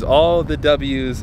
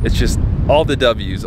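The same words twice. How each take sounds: First: "all the W's" slowly stretched out; savoured repeat. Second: Said in the usual way. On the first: Real, not acted. Owner savouring the win, slow "all the W's". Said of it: "repeated slower".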